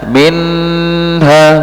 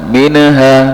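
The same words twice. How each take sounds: First: The n sound is held too long. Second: The n sound is bounced with an echo. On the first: "memanjangkan suara nun sukun atau tanwin lebih dari kadarnya" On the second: "memantulkan itu kesalahannya"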